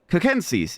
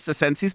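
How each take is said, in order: First: The word starts with a hard K sound. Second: The word starts with a soft S sound. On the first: The speaker calls it right. "it would be just replaced with a K" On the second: The speaker calls it wrong. "It wouldn't be circenses"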